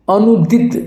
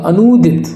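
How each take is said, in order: First: अनुदित with short u, "anudit". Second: अनुदित said as "anoodit"; long "oo". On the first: Teacher shows the wrong form, अनुदित with short u. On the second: Teacher gives the right form, अनुदित as "anoodit". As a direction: stretch the u of अनुदित to "oo". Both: Shown as a demonstration. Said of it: "अनुदित नहीं होगा".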